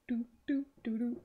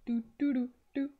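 No difference in how they are said.

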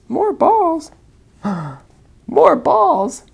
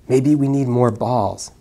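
First: High loud thrilled echo; excited. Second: Said in the usual way. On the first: Acted. Elephant echoing the snake's idea with delight. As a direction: gasp it out with delight.

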